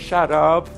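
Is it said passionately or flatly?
flatly. It is said flatly, without passion.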